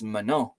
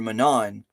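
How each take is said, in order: First: The final N is silent, with a nasal vowel. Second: The final N is clearly sounded. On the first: The speaker calls it right. "but it's Manon" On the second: The speaker calls it wrong. "English people will tend to call her Manon"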